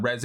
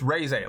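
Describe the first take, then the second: First: REZE with a short first vowel, "REZ-ay"; corrected pronunciation. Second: REZE with a long first vowel, "RAY-zay"; insisted pronunciation. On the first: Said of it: "people love to be like". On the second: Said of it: "It's not Reze". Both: Acted.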